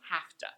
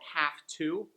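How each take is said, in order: First: The two words are jammed into one word. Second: The two words are said fully and separately.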